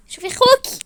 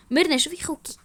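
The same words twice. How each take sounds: First: High-pitched, insistent complaint; exasperated appeal. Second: Said in the usual way. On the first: Acted. Wife tells sister to see her brother, shrilly exasperated.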